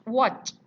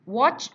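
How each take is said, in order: The two takes are said the same way.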